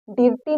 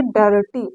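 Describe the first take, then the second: First: डिर्टी with a short i before the r; wrong i reading. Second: डर्टी with a short "uh" before the r; डर्टी, first vowel as short Hindi a; short a sound. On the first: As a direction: say डिर्टी as spelt, "dir-tee". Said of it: "डिर्टी नहीं पढ़ेंगे". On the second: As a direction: say डर्टी as "dur-tee". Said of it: "इसको हम पढ़ेंगे डर्टी". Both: Shown as a demonstration.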